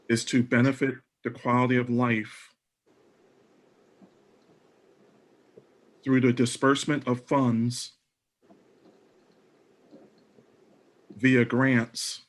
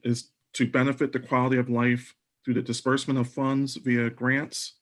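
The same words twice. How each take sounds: First: It is spoken at a slower, deliberate pace. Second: It is spoken at a normal, quicker pace.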